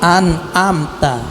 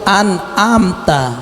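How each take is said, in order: The two takes are said the same way.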